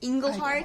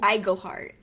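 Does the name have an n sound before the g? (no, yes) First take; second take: yes; no. First: The name has an n sound before the g. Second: The name has no n sound before the g. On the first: The speaker calls it wrong. "I said Englehart because I always put an N in his name" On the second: The speaker calls it right. "It's James"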